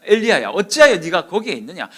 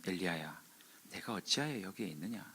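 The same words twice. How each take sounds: First: Loud, higher, challenging call; forceful rebuke. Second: Soft, low voice of God; still small voice. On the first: Preacher as God confronting Elijah, loudly rebuking. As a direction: demand an answer at full force. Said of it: "엘리야에게 강하게 말씀하셨어요". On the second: Preacher as God calling Elijah, hushed and low. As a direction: call gently, far below preaching volume. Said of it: "아주 세미한 음성이 들려서". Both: Retold or imitated.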